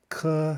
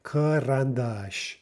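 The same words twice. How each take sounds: First: Karandash split as kuh, rahn, DAHSH with pauses; syllable by syllable. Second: Karandash joined up as kuh-rahn-DAHSH; first vowel reduced. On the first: Teacher shows all three vowels, Karandash broken apart. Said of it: "because we have all three". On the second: Teacher shows the first uh, karandash said whole. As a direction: say karandash as one slow word, stress last. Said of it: "we have the first one pronounced uh". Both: Shown as a demonstration.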